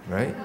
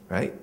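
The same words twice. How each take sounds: Both takes have the same delivery.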